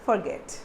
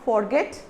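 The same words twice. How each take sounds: First: The first vowel sounds like a 'u'. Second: The first vowel sounds like a full 'o'. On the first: The speaker calls it right. "if this O is a U" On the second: The speaker calls it wrong. "It's not forget"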